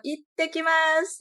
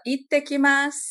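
First: "Ittekimasu" much higher, slow, rising; higher Japanese voice. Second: "Ittekimasu" said brightly in Japanese, higher and louder; Japanese greeting. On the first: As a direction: lift "Ittekimasu" into a higher, sing-song Japanese tone. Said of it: "já fica com uma entonação um pouco mais aguda". ("Ittekimasu" bem mais agudo, lento, subindo) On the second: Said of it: "tem que ser com essa entonação". ("Ittekimasu" com entonação japonesa, mais aguda e forte) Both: Shown as a demonstration.

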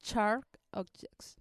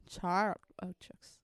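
First: Said in the usual way. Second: Whispered, slow Sharp Objects; whispering. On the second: Shown as a demonstration. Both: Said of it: "series de nombres que pueda pronunciar".

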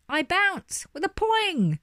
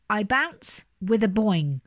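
First: Slow, much higher bouncy chant; spring up high and half-sing it; sung, high sing-song. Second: Slow, bouncy chant in the usual pitch; half-sing it with a steady bounce; sing-song chant. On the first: Sung, jack-in-a-box bouncing along to his song, high sing-song. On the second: Chanted, jack-in-a-box starting his bouncing song, slow sing-song. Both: A narrator's reading. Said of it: "he began to sing".

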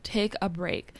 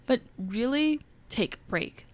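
First: Said in the usual way. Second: But really take a break, with "really" pushed higher and held; stress on really. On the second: Shown as a demonstration. Host stressing rest for listeners, leaning on really. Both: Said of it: "I wanna emphasize that".

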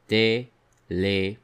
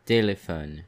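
First: Téléphone drawn out slowly syllable by syllable; slow teacher model of Téléphone; slow syllable demo. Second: Said in the usual way. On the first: Shown as a demonstration. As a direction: stretch Téléphone so each é is heard. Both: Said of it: "The word téléphone has the sound E".

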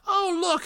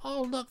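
First: "Oh, look" much higher, mock surprise; mock surprised exclaim. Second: Said in the usual way. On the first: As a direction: gasp out "Oh, look" like a fake discovery. Repeats "oh look" reacting.

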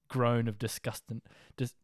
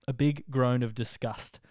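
First: Said in the usual way. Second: Big slowed and leaned on, whole phrase slower; slow down and hit big hard; a big, slowed, emphatic groan of disgust; stress on big. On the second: Real, not acted.

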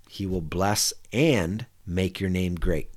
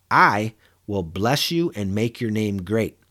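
First: Said in the usual way. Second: "I" leaned on, slow and deliberate; stress on I. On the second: Shown as a demonstration. Pastor reading God's promise to Abram, stressing "I". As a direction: hit the word "I" hard, as God speaking. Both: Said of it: "I was emphasizing the word "I".

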